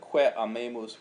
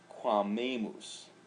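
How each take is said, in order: First: The two vowels are said separately. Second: The two vowels blend into one syllable.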